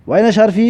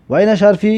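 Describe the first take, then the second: No difference in how they are said.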